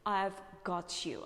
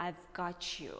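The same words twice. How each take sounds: First: "got you" with a crisp T before "you"; "got you" as "got-yoo"; British released T. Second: "got you" run together as "gotcha-you"; "got you" as "gah-chu"; American blended T and Y. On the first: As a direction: keep T and Y apart in "got you". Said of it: "But British accent". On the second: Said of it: "closer to American accent". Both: Shown as a demonstration.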